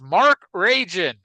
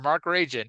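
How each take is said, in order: First: The name is shouted loudly. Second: The name is said at a normal volume. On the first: "always written in all caps" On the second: "it's not just Mark Regan or Mark Rajan"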